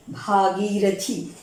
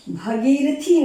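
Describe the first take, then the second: First: भागीरथी said slowly with a long 'भा' at the start; correct pronunciation. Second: भगीरथी said with a short 'भ' at the start; wrong pronunciation. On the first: Teacher correcting students, slowly giving भागीरथी. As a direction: stretch the भा in भागीरथी. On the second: Teacher showing students the wrong form, भगीरथी. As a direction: say भगीरथी as bha-gee-ra-thee with a short first vowel. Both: Shown as a demonstration. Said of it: "भगीरथी नहीं".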